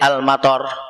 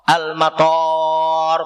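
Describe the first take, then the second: First: The second vowel is kept short. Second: The second vowel is held long. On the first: It means rain. "Dengan pendek" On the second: It means airport.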